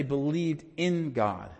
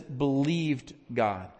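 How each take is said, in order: First: Slow "believed in God" with "in" stressed; "in" given the weight in "believed in God". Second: Slow "believed God" with weight on believed; "believed God" said slow, believed stressed. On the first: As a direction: hit the word "in". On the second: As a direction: lean on "believed", no "in". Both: Shown as a demonstration. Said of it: "it doesn't say "believed in God".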